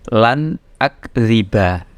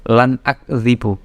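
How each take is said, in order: First: The last word ends in an 'a' vowel. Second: The last word ends in a 'u' vowel. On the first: The speaker calls it right. "bacanya awas lan akziba" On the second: The speaker calls it wrong. "Jadi bacanya bukan lan akzibu"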